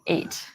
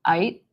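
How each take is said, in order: First: The vowel is a plain North American 'ay'. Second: The vowel sounds close to the word 'I'. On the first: "instead of eight" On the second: "that vowel A becomes like eight"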